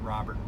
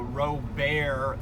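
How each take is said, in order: First: The name is pronounced the English way. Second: The name is pronounced the French way. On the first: "it looks like Robert" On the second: "that's how the French would have pronounced it"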